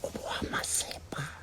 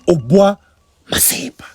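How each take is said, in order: First: It is said in a whisper. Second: It is said in a normal voice.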